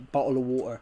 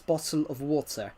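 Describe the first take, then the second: First: The T sounds are dropped, not pronounced. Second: The T sounds are clearly pronounced. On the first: The speaker calls it wrong. "they don't actually say" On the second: The speaker calls it right.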